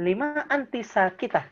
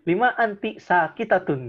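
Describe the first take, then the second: First: Slow teacher's model, "sakitah" in pausal form; pausal feminine ending. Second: SAKITATUN with the -tun ending sounded; slow, louder counterexample, "sakitatun" ending in -tun; full case ending. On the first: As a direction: close "sakitah" on -ah, without the -tun. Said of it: "ditambahin H aja gitu". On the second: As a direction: pronounce every ending, "sakitatun". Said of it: "gitu, nggak usah ya". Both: Shown as a demonstration.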